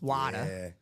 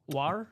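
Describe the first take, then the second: First: Water is said in a Boston accent. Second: Water is said in a Baltimore accent.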